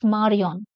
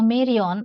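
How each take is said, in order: First: It is said with French vowels and a French R. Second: It is said with English vowels and an English R. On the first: "but in French, it is Marion" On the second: "In English, you may pronounce it as a Marion"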